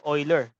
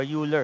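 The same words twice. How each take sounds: First: Euler said as "OY-ler"; Euler pronounced "oiler"; alternative pronunciation. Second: Euler said as "YOO-ler"; Euler pronounced "yooler"; alternative pronunciation. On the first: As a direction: say Euler with an opening "oy" sound. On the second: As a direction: say Euler with an opening "you" sound. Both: Shown as a demonstration. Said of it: "if you may pronounce it".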